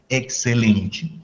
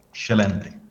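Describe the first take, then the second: First: Every vowel is pronounced fully and clearly. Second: The vowels are reduced or swallowed. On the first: "en portugués de Brasil pues pronunciamos como excelente" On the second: "un portugués diría como excelente"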